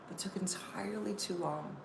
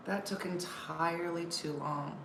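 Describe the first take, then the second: First: Whispered aside to the crowd; hushed, unvoiced repeat of the punchline. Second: Said in the usual way. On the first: Shown as a demonstration. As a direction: breathe it as a secret.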